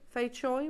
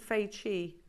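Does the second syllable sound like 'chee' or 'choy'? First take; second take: choy; chee. First: The second syllable sounds like 'choy'. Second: The second syllable sounds like 'chee'. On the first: This is how someone else says it. "Dave pronounced it differently" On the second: This is how the speaker usually says it. "I've always said Fei Chi"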